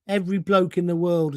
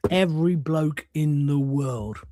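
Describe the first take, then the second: First: Said in the usual way. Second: Drawn out word by word; slow emphatic repeat. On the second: Real, not acted. Host driving home that everyone has lived it, slow and emphatic. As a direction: spell it out slowly for weight.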